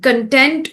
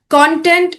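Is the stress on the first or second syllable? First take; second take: second; first. First: The stress is on the second syllable. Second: The stress is on the first syllable. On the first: It means happy and satisfied. "Content means happy and satisfied" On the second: It means the material that people watch. "Content is the stuff that we watch"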